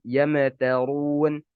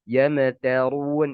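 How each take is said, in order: Both takes have the same delivery.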